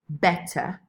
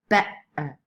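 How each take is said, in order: First: The middle consonant is a clear t sound. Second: The middle consonant is a glottal stop.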